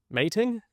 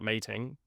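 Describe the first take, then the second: First: Higher, questioning echo of own slip; incredulous query. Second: Said in the usual way. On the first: Real, not acted. Presenter catching their own misspeak, incredulous query. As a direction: repeat it as a startled question.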